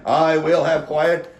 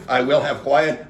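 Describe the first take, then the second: First: Drawn-out, raised mock call for order; insistent demand. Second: Slow, measured mock demand for order. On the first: Council member to a crowd gone wild, slow insistent calling out. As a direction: stretch each word over the noisy crowd. Repeats the demand, louder and slower. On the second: Council member to a wild audience, firm slow demand. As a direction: imitate a chair firmly calling for silence.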